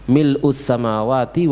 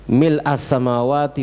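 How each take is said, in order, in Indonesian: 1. Kata pertama berakhir dengan vokal 'u'. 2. Kata pertama berakhir dengan vokal 'a'.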